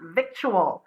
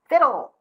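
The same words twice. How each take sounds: First: The k sound is pronounced in the middle. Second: The word sounds like vittle, with no k sound. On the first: The speaker calls it wrong. "not victual" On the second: The speaker calls it right. "Victual, not victual"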